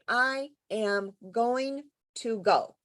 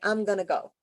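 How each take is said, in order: First: Each word is said fully and separately. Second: The words are contracted and run together. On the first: "we rarely, when we're chatting with somebody, say" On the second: "So it sounds like"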